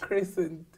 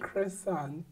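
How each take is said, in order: First: The word is said as plain crescent. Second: The word is said to sound like croissant. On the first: The speaker calls it right. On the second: The speaker calls it wrong. "No, a croissant is something you eat"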